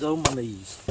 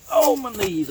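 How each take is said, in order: First: Softer groan, getting up off knees; sore knees groan. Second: Groaning, getting up off knees; sore knees groan. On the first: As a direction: quietly groan about stiff knees. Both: Real, not acted.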